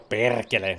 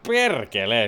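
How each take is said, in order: First: It is said in an angry tone. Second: It is said in a happy tone.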